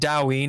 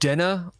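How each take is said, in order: First: The name is said with a w sound. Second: The name is said without a w sound. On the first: This is an acceptable alternative pronunciation. "you can call it Daween if you want" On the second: This is the intended pronunciation. "It's pronounced Denna"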